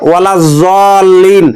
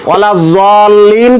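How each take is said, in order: The two takes are said the same way.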